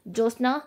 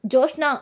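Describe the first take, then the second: First: Said in the usual way. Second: Name called again, now higher and louder; loud shout. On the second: A narrator's reading. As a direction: shout her name across the house. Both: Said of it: "అని గట్టి గట్టిగా అరుస్తూ ఉంటుంది".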